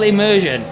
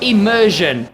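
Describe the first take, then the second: First: The word is slurred and not clearly pronounced. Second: The word is said carefully and clearly pronounced. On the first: The speaker calls it wrong. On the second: The speaker calls it right.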